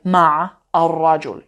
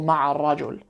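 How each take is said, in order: First: The first word ends with no linking vowel. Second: A short vowel links the first word onward. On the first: The speaker calls it wrong. "you wouldn't say ma ar-rajul" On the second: The speaker calls it right. "you'd say ma'i ar-rajul or ma'a ar-rajul"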